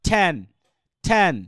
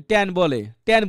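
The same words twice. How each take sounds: First: ঠ্যান with strongly aspirated ঠ; correct pronunciation. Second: ট্যান with a hard, unaspirated ট; imitated mispronunciation. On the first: Shown as a demonstration. Teacher gives the correct version to students, aspirated ঠ্যান. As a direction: puff the first sound of ঠ্যান, vowel open. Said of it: "আমরা সঠিকটা বলতে পারি". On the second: Teacher imitates someone who avoids the ঠ, unaspirated ট্যান. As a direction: say ট্যান without any puff of air. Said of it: "ঠ বলে না".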